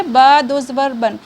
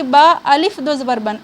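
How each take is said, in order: First: बा दो ज़बर बन said slowly, with no अलिफ; correct spelling out. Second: बा अलिफ दो ज़बर बन with the अलिफ wrongly read aloud; wrong spelling out. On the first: Teacher shows students the right way, slow and careful. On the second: Teacher shows students the wrong way to spell out. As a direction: show the mistake, बा अलिफ दो ज़बर बन. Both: Shown as a demonstration. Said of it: "इस तरह नहीं करना है".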